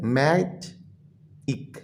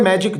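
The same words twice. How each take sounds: First: "मैजिक" very slowly, in two softly separated syllables. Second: Said in the usual way. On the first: Shown as a demonstration. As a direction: split "मैजिक" in two with a clear gap between. ("मैजिक" को दो हिस्सों में तोड़कर, धीमी आवाज़ में) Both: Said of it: "ये बच्चों टू वर्ड सिलेबल है".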